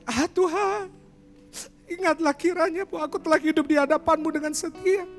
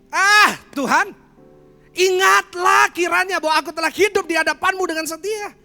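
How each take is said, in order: First: It is said in a calm tone. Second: It is said in an angry tone. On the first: "versi yang kedua" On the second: "Kalau Hizkia marah sama Tuhan. Nadanya kayak gini"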